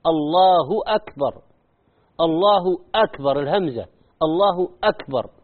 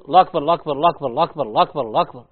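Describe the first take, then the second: First: الله أكبر with a clear "الله" and full hamza; careful الله أكبر, each syllable present; full takbir. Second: الله أكبر gabbled as "لا كبر", the name of God lost; fast clipped الله أكبر, fading lower; clipped takbir. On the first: Shown as a demonstration. Teacher demonstrating the correct takbir. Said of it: "ما طلع لفظ الجلالة". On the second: Retold or imitated. Teacher imitating people rushing the takbir. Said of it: "بعض الناس يقول".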